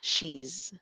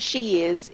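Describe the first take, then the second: First: The two words are joined into one syllable. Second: The two words are said separately. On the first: The speaker calls it right. "Ito, she's" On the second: The speaker calls it wrong. "Yung isa, she is"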